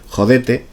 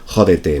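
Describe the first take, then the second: First: The stress is on the second syllable. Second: The stress is on the first syllable. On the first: This is how a character in the story says it. "así como palabra llana" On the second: This is how it is said in Spain. "en España lo pronunciaremos como si fuera una palabra etrusca"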